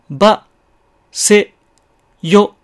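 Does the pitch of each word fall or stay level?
level. Each word stays high and level in pitch. "高いまま発音する"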